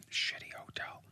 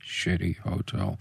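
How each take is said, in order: First: Barely audible whisper; whispered aside. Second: Slow, low and softly voiced; low, quiet repeat. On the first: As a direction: whisper it under your breath. Muttered aside before repeating it. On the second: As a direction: say it slowly, low and soft. Repeats the whispered words voiced. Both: Real, not acted.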